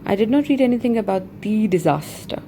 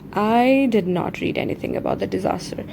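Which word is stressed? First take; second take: disaster; I. First: The stress falls on the word disaster. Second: The stress falls on the word I. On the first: The disaster is the key point of the sentence. "If we have to emphasize on the word disaster" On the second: The speaker personally has not read it. "If I have to emphasize on myself"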